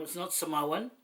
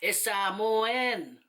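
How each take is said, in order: First: "Samoan" said quickly in one run, English-style; wrong pronunciation. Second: "Samoan" very slow, in separate syllables ending on a clear "en"; proper pronunciation.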